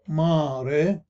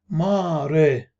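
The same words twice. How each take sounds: No difference in how they are said.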